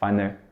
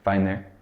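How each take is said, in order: First: The D and TH sounds are almost dropped. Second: The D and TH sounds are almost dropped.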